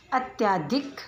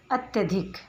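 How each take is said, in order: First: अत्याधिक with a long "या", the wrong way; अत्याधिक stretched as "अत्-या-धिक"; wrong pronunciation. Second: अत्यधिक with a short "य", "अत्यधिक"; अत्यधिक said without the extra long vowel; correct pronunciation. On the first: (अत्याधिक, अशुद्ध रूप) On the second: (अत्यधिक, शुद्ध रूप) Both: Shown as a demonstration. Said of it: "इन शब्दों का उच्चारण करते हैं".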